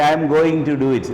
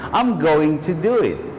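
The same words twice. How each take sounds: First: Going is said with an extra vernacular sound. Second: Going is said plainly, just as written. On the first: The speaker calls it wrong. "You don't say" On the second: The speaker calls it right. "So this is how you have to write it"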